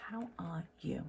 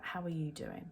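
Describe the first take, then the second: First: Soft playful whisper; a quiet whispered repeat of the greeting. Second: Said in the usual way. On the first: Pretend. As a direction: whisper the question to the viewer. Greeting viewers, then whispers.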